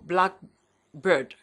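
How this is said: The main stress falls on black. It names a particular kind of bird.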